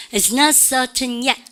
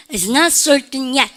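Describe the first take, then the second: First: Slow British model, R-less "certain" with sounded T; British English, stretch it out without the R; British accent. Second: Slow American model, R kept in "certain"; American English, stretch it out with a curled R; American accent. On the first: Teacher leading class repetition, slow British pronunciation. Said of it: "영국 애들은 certain 그래요". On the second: Teacher leading class repetition, slow American pronunciation. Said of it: "R 발음 살려보고". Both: Shown as a demonstration.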